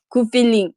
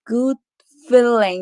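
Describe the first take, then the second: First: Said flatly with a plain Korean-style accent. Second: Said with heavily rolled, exaggerated American-style sounds. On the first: "토종 한국인 영어를 해요" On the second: "엄청 굴리래요"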